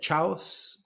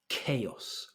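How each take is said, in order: First: The word begins with a 'ch' sound. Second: The word begins with a 'k' sound. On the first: The speaker calls it wrong. "I've heard chaos sometimes. ... You're thinking ch" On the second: The speaker calls it right. "the ch is a k. So it's chaos"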